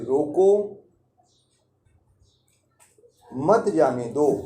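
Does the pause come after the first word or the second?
first. There is a pause after the first word. The guest should be stopped from leaving. "पहली बार किसी अतिथि को रोकने के लिए कहा गया है"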